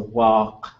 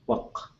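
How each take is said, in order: First: The vowel is long, with its full tone. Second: The vowel is short, with a flat tone. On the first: The word stands on its own. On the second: The word is part of a compound.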